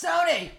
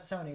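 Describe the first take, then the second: First: The name is said with loud, excited energy. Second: The name is said in a flat, ordinary way. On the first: The speaker calls it right. "That's why it's got the exclamation point" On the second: The speaker calls it wrong. "It's not Sony"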